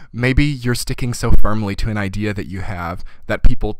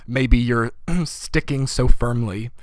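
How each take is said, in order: First: Said in the usual way. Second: Hoarse, clearing throat mid-phrase; slow, rough-throated, voice giving out; losing voice. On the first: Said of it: "excuse me". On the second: Real, not acted. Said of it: "I'm losing my voice".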